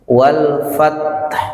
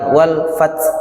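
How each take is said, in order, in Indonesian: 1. Huruf t terakhir ditahan, lalu dilepas dengan hembusan napas. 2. Huruf t terakhir dipotong pendek tanpa hembusan napas. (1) "ditahan, diikuti bunyi ha" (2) "bukan wal fath, salah"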